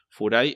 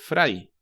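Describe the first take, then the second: First: It is said with Japanese pronunciation. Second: It is said with English pronunciation.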